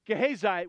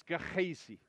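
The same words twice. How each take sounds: First: Gehazi said the English way, guh-HAY-zye; English Gehazi with a hard g and long i ending; anglicized name. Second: Gehazi said softly with a breathy kh, ke-eh-zee; Hebrew pronunciation. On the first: Pastor reading the name in plain English. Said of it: "I am totally butchering that guy's name". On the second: Pastor correcting himself on the Hebrew Gehazi. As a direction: give Gehazi its Hebrew sounds, unstressed ending zee. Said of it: "just so you know, it's". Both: Shown as a demonstration.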